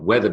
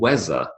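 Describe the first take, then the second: First: The middle consonant is a th sound. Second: The middle consonant is a z sound. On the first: The speaker calls it right. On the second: The speaker calls it wrong.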